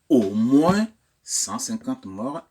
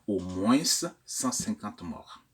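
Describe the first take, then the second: First: The final S of moins is silent. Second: The final S of moins is pronounced. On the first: The speaker calls it right. "on dira" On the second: The speaker calls it wrong. "et non pas"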